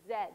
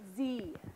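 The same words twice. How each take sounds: First: The letter is said as 'zed', non-American style. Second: The letter is said as 'zee', American style.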